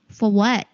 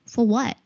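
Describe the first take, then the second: No difference in how they are said.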